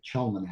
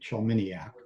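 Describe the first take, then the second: First: The name is said with a shorter 'nac' ending. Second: The name is said with a 'niak' ending. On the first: A smaller part of the family says it this way. "of which I'm a part, now pronounces it Chelmanac" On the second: Most of the family says it this way. "two thirds of the family pronounces it that way"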